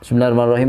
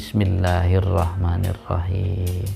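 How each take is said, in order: First: It is recited flatly, like reading out notes. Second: It is recited slowly, calmly and with feeling. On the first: The words are only recited from memory, not felt. The speaker calls it wrong. "kan baca catatan tuh" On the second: The speaker is sincerely addressing God. The speaker calls it right. "bacaannya dengan tenang"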